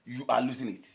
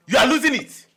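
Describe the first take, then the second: First: Said in the usual way. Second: Very loud, high accusation; exasperated shout. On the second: Acted. Telling obsessed friend he is losing it, exasperated shout. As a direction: yell it right at him.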